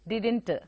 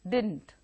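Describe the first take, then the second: First: The second syllable is pronounced and stressed. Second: The second syllable is not pronounced at all. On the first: The speaker calls it wrong. "See how it lands on the last syllable" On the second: The speaker calls it right. "Actually, it is not pronounced at all"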